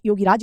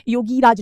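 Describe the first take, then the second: First: योगीराज with a short "gi"; योगीराज, middle i kept short; correct short vowel. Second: योगीराज slow, with a stretched "gee"; योगीराज with the middle i held long; wrong long vowel. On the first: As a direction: say योगीराज as "yo-gi-raaj". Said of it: "योगीराज कहलाते हैं". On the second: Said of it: "योगीराज नहीं". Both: Shown as a demonstration.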